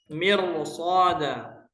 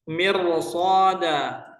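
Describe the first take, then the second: The two takes are said the same way.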